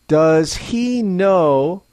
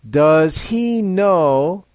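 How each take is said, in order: Both takes have the same delivery.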